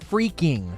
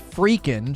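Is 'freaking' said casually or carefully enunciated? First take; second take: enunciated; casual. First: The word is said with careful, crisp enunciation. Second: The word is said casually and loosely. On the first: The speaker calls it wrong. "she says freaking, which is weird" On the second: The speaker calls it right. "she doesn't say freaking"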